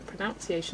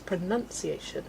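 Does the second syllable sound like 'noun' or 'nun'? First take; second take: noun; nun. First: The second syllable sounds like 'noun'. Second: The second syllable sounds like 'nun'. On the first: The speaker calls it wrong. "is not a word" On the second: The speaker calls it right. "The word is pronunciation"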